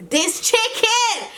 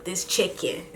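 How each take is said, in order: First: High, drawn-out mock rave; hammed-up squeal of food praise; imitating mom. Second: Softly voiced mock amazement; soft first take of a retold rave; imitating mom. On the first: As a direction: stretch it way up high in exaggerated delight. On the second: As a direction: say it low in volume, holding back. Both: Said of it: "she was like".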